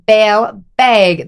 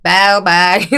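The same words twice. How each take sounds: First: Put-on drawn-out Fargo-accented "bag". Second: "bag" with an exaggerated open a; deliberate pronunciation. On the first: Retelling how she repeats it when misheard, Fargo accent. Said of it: "You're saying bag weird". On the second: Shown as a demonstration. Guest going out of her way to correct herself, open "bag". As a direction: overdo the open vowel in "bag". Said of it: "go out of my way to be like".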